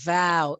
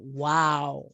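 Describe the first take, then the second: First: It begins with a v sound, teeth on lip. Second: It begins with a w sound, lips rounded. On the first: The speaker calls it wrong. "You will produce a V sound. Okay, wow. It's wrong" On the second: The speaker calls it right. "open a wide circle mouth for reading wow"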